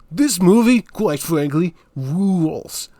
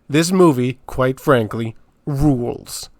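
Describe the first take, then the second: First: It is said in a put-on character voice. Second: It is said in his ordinary voice.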